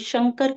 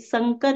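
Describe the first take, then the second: First: The word begins with an sh sound. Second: The word begins with a plain s sound. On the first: This is the standard Hindi pronunciation. The speaker calls it right. "शंकर का उच्चारण कीजिए, जो शुद्ध उच्चारण है" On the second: The regional mother tongue is influencing the Hindi. The speaker calls it wrong. "स ना बोल के, संकर ना बोल के"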